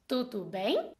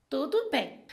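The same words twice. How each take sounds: First: "Tudo bem" asked softly, rising sharply on "bem"; question intonation. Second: "Tudo bem" stated softly, falling at the end; statement intonation. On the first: Teacher contrasting two intonations, rising question tune. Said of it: "eu fiz uma pergunta". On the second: Teacher contrasting two intonations, falling statement tune. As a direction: let "bem" drop, settling it as a fact. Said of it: "eu fiz uma afirmação". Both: Shown as a demonstration.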